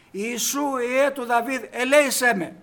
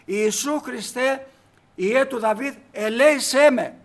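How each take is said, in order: First: A preacher's retold cry, raised voice; blind man calling out. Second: Slower, louder retold plea, drawn out; crying out louder. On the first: Blind man crying out to the passing Jesus, raised voice. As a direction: call out to Jesus as he passes by. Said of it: "αρχίζει και φωνάζει αυτός". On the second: Blind man shouting louder though the crowd hushes him. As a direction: call him again, harder and slower. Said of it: "Αυτός φώναζε δυνατότερα".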